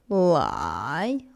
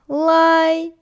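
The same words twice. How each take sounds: First: The pitch dips low, then rises. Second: The pitch stays high and level.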